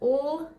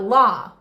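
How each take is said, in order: First: The bare consonant is said with no vowel. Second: The consonant is followed by an added vowel. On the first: The speaker calls it right. "L is just l" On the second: The speaker calls it wrong. "not la. No ah there"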